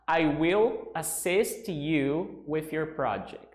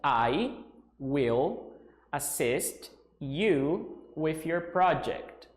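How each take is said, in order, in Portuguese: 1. A frase é falada em um ritmo normal. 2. A frase é falada um pouco mais devagar.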